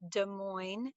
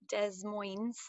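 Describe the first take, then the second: First: The name is pronounced the usual, standard way. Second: The name is pronounced in a mangled, unusual way. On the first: The speaker calls it right. "The capital of Iowa is Des Moines" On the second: The speaker calls it wrong. "It is not Des Moines or any combination of, of phonetic impossibilities"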